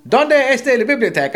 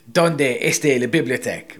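First: High, loud Spanish TV line; imitated TV voice. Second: Said in the usual way. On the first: TV suddenly proves the friend wrong, high loud imitation. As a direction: blurt it out like a cartoon on telly. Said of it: "Up on the T V comes". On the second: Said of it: "I used to say".

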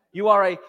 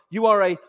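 No difference in how they are said.

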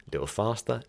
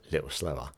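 First: Lightly quickened demo, lifted pitch; a little faster. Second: Eased-off demo, lower and softer; a little slower. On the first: Teacher shows listeners a change of rhythm, a little faster. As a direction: nudge the pace up a touch. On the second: Teacher shows listeners a change of rhythm, a little slower. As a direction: settle down, dropping pitch and volume. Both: Shown as a demonstration.

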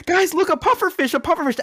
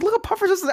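First: Much higher, chirpy imitation of the snorkel guide; guide's excitement. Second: Very high sarcastic parroting of "Look, a pufferfish"; mock echo. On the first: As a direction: mimic the guide cheerfully pointing at a fish. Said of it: "The guy's like". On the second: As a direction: echo the guide mockingly while drowning. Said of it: "I was like".

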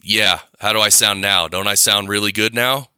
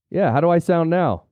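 First: Shrieky harsh sound. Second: Sounds like through a pillow; muffled voice. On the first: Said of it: "How does this sound shrieky and nasty?". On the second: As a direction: dull muffled sound, no clarity. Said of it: "I'm gonna take out some clarity on my voice". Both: Shown as a demonstration.

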